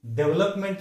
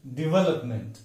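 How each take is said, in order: First: First डेवलपमेंट as "DEV-lup-ment"; wrong pronunciation. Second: डेवलपमेंट as "di-VEL-up-munt", stress on VEL; correct stress. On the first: Teacher showing what to avoid, wrong pronunciation. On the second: Teacher giving the replacement, correct pronunciation. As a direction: say di-VEL-up-munt with weak ending. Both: Shown as a demonstration. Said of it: "के बजाय डेवलपमेंट".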